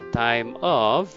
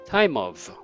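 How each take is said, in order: First: The words are said separately, without linking. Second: The words are linked smoothly into each other.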